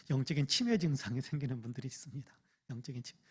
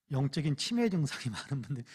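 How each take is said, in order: First: "영적인 치매" whispered without voice. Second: Said in the usual way. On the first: Shown as a demonstration. Pastor whispering to the congregation about spiritual dementia. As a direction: lean in and whisper it.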